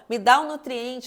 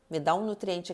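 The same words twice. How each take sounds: First: It is shouted at full volume. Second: It is said softly and quietly. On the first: The body demands desperately. "ele vai gritar" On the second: The body makes a gentle first request. "começou falando baixinho ali para você"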